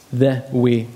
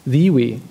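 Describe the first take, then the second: First: "The" set apart and weighted, short vowel; stress on The. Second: "The" stressed and said as "thee"; emphatic The. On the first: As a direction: lean deliberately on "The". Preacher repeats the word for emphasis. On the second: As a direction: make it "THEE", the one and only. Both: Real, not acted.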